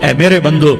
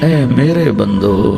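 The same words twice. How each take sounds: First: It is said in a plain, unaffectionate tone. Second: It is said in a warm, tender tone. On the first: The speaker calls it wrong. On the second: The speaker calls it right.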